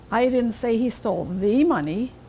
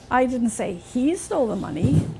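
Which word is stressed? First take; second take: the; he. First: The word 'the' carries the main stress. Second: The word 'he' carries the main stress. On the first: He took different money. "Maybe some other money he stole. Not that one" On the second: Someone else took it. "Somebody else must have taken it, not him"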